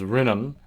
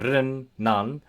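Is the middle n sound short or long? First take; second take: short; long. First: The middle n sound is short. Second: The middle n sound is held long. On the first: The speaker calls it wrong. "you don't you don't pronounce it as rinnan" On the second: The speaker calls it right. "when consonants are doubled, you would pronounce them as as you would in Italian"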